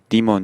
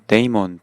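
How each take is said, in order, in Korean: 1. 첫 모음은 ee 소리 같아요. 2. 첫 모음은 ay 소리 같아요. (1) "또는 뭐 디먼 이렇게도 발음을 할 수 있는" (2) "해외에서는 이제 데이먼"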